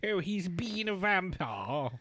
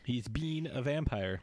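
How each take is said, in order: First: It is said in a put-on old-fashioned voice. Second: It is said in his normal voice.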